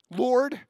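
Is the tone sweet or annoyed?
annoyed. It is said in an annoyed, exasperated tone.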